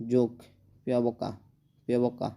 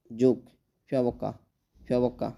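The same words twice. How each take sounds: The two takes are said the same way.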